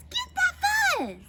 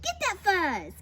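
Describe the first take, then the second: First: High, loud yell; frantic battle cry. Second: Raised, urgent command; urgent order. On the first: Prairie dog urges the fight on, frantic yell. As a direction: shriek the command at full pitch. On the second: Prairie dog orders others after fuzz, urgent. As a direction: egg the fighters on, not yet yelling. First of two battle cries. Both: A narrator's reading.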